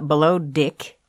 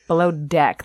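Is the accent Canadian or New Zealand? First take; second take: New Zealand; Canadian. First: Deck is said with a vowel like dick. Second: Deck is said with a clear open vowel. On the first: "It's Deck sounding more like Dick" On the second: "That's how Canadians say it"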